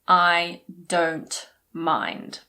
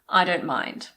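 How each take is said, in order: First: The T in "don't" is clearly pronounced. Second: The T in "don't" is swallowed. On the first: The speaker calls it wrong. "I didn't say" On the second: The speaker calls it right. "we normally swallow it. So we say"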